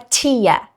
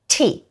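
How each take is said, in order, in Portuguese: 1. Se pronuncia como 'tia', terminando em 'ah'. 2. Se pronuncia como 'tee', terminando em 'ee'. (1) "E não é tia" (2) "É tea"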